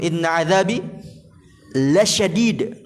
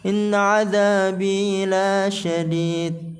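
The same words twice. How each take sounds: First: The vowel after the L is short. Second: The vowel after the L is long. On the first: The punishment is truly severe. The speaker calls it right. "Lamnya panjang pendek? Pendek" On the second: The punishment is not severe. The speaker calls it wrong. "dia pengen kasih nada-nada"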